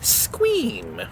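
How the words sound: It is said in a silly, put-on voice. It is said this way just for fun. The speaker calls it wrong. "it has to be in a weird voice"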